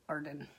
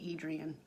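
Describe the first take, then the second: First: The name has two syllables, like Arden. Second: The name has three syllables, like Adrian. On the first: The speaker calls it right. "it should be pronounced Arden" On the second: The speaker calls it wrong. "I say Adrian"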